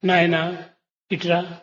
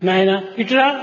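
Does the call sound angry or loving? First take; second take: loving; angry. First: It is said softly and lovingly. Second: It is said harshly and angrily. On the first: The caller feels affection. "ప్రేమతో పిలిచినట్టుగా అవుతుంది" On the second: The caller is angry. "కోపంతో చెప్పినట్టుగా ఉంటుంది"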